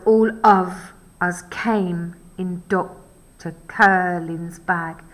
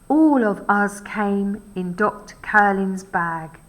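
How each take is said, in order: First: Every second syllable is hit with a heavy beat. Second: The line flows with ordinary speech stress and rhythm.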